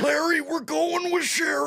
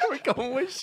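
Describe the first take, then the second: First: High, strained shout; Super Dave voice. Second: Super Dave voice. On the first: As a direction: belt it high and tight. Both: Retold or imitated. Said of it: "That's a good Super Dave".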